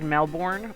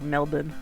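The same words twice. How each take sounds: First: It is said the way an outsider would. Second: It imitates the local Australian way. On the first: A tourist says it their own way. "if tourists say it like Melbourne" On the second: A tourist tries to sound like a local. "try and say it like Melbourne"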